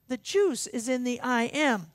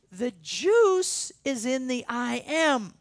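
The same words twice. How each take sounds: First: Said in the usual way. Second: Slow and louder, leaning hard on juice; drawn out for weight, stressing juice; slow emphatic. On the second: Shown as a demonstration. Preacher driving home that the juice is in the I am, slow and emphatic.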